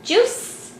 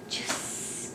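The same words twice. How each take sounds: First: JUICE high, swooping up as a question; high, rising "Juice?"; high prompting question. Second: JUICE in a soft whisper; hushed, voiceless "Juice"; whispered word. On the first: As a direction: coax a child to say "Juice" with a high rise. Prompting child to repeat word. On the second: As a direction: whisper "Juice" to a child to copy. Modelling the word for child. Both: Shown as a demonstration.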